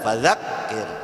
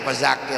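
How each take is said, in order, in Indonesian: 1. Konsonan setelah 'fa' bunyinya seperti 'th' di 'this'. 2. Konsonan setelah 'fa' bunyinya seperti z. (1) "Harusnya kan dzadzubal" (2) "Fazakir ya kata Fazakir"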